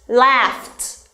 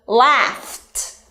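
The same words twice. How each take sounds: First: Said in the usual way. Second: "Laughed" with f drawn out, then a separate t; ending first, then T. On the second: Shown as a demonstration. Teacher demonstrating the T ending, sounds separated. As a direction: split "Laughed" into laugh, gap, t. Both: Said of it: "pronounce ending sound first and then add T".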